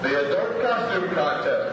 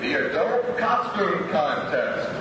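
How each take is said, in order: First: The word adult gets strong emphasis. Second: The word adult gets no special emphasis.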